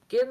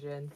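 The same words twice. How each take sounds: First: It begins with a hard g sound. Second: It begins with a soft j sound. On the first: "like gin like Guinness" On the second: "gin like whiskey and gin"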